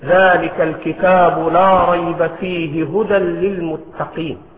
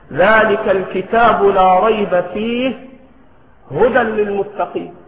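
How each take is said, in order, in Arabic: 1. تُقرأ الآية بدون أي وقف. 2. يوجد وقف مباشرة بعد fihi. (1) "والسنة أنك تصل الآية" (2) "ويصح الوقف على فيه"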